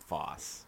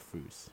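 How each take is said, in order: First: The vowel is a short open o sound. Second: The vowel is a long oo sound. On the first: "for a while we were pronouncing foss" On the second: "He pronounced it foos"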